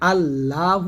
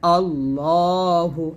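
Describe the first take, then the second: First: The L is light and thin. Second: The L is heavy and thick. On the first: The speaker calls it wrong. "আল্লাহ না বললে" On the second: The speaker calls it right. "বলতে হবে আল্লাহ"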